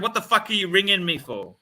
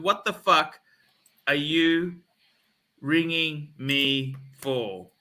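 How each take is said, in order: First: Indignant question in one run; retold indignant demand. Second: Broken up with long pauses; slow deliberate demand. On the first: Retelling his retort to the calling salesman, indignant and unbroken. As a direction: fire off the challenge without pauses. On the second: Retold or imitated. Repeating his retort to the salesman, slow and emphatic. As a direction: spell it out, chunk by chunk. Same rebuke, word by word.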